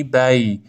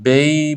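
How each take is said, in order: First: بی with a clear open a; correct "bay". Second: بی with an e glide; narrowed vowel in بی; wrong "bey". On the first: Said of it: "فتحه رو با وضوح بگید". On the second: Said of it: "نخونید بینهم". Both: Shown as a demonstration.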